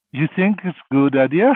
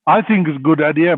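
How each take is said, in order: First: Rising question, ending up on "idea". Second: Louder statement, leaning on "I" and falling away; firm assertion. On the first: Father asking the holy man about his advice, questioning rise on "idea". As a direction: ask it, lifting the pitch at "idea". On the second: Holy man answering the doubtful father, firm and louder on "I think". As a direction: answer firmly, punching "I think". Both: Retold or imitated.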